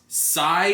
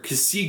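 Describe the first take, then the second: First: It is pronounced like sigh, one syllable. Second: It is pronounced with two syllables, ka-see. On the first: "it's Sai, like S A I" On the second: "or Kasi Gundam"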